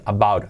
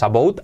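First: "about" as a-BAUT, falling; correct pronunciation. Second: "about" as a-BOWT with an O, rising; the mistaken "about", sounding the O; wrong spelling pronunciation. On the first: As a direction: say "about" with an AU diphthong. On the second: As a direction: say "about" with O-U as written. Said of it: "No es about". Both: Shown as a demonstration.

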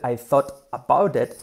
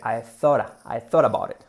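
First: "thought about it" with every T fully pronounced; strong T. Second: "thought about it" linked with tapped Ts; soft R for T. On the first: Teacher shows the non-native version of "thought about it", hard Ts. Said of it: "en lugar de ser". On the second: Teacher models native "thought about it", T as soft R. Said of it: "en una R suave". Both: Shown as a demonstration.

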